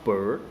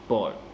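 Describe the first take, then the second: First: The vowel is a standard r-colored vowel. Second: The vowel sounds like the vowel in boy. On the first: "Instead of bird" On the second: "In New York, some people will pronounce the word bird as boy"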